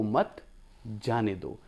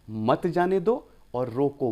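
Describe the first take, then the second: First: मत, a short pause, then जाने दो softer; teacher showing the pause after मत. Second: Slow: मत जाने दो, and then रोको; teacher showing the pause placement; pause after रोको. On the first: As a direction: break after मत so it means don't let go. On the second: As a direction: pause before रोको so the order is to stop. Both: Shown as a demonstration. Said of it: "कहाँ पर आपने pause ले लिया".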